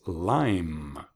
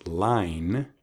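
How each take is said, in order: First: "lime" ending on a hummed M, drawn out; final M. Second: "line" ending on a clear N, drawn out; final N. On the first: Teacher contrasting two words for learners, final M in "lime". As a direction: close the lips on a long M in "lime". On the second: Teacher contrasting two words for learners, final N in "line". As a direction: finish "line" slowly on the tongue-tip N. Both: Shown as a demonstration. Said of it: "¿Oíste la diferencia?".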